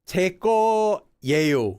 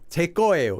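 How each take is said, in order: First: The final vowel begins with a y-glide. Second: The final vowel has no y-glide. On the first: "It's easier to say eo than yeo" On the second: "that's just a lazy pronunciation thing"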